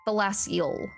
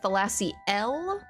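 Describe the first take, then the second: First: The ending L is swallowed and barely heard. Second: The ending is a full, separate 'el' sound. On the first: "where you kind of swallow the L" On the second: "like E L L E, pronounced like Thalasi L"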